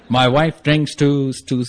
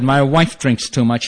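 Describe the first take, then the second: First: Very slow, labored over-enunciation; louder and slower. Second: Said in the usual way. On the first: Retold or imitated. Husband shouting and miming at the counselor, mock-loud and slow. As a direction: spell it out slowly, as if to someone who can't understand. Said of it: "So I'm shouting and doing charades". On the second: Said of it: "so I spoke louder and slower".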